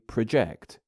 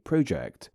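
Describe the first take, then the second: First: The stress is on the second syllable. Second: The stress is on the first syllable. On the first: It is used as a verb. "when said as a verb, the latter syllable becomes more prominent" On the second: It is used as a noun. "When said as a noun, the first syllable is slightly more stressed"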